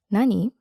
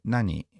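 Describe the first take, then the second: First: Light, open, friendly question; friendly nani. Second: "Nani?" with a falling end; falling intonation. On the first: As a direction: ask it with a smile in your voice. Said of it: "you have to sound friendly". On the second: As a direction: let "Nani?" drop at the end. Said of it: "with a falling intonation". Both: Shown as a demonstration.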